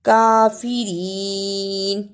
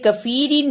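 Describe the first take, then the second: First: The first vowel is drawn out long. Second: The first vowel is cut short. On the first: The speaker calls it right. "काफ के ऊपर खड़ी जबर" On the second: The speaker calls it wrong. "इसे कफीरीन नहीं पढ़ना।"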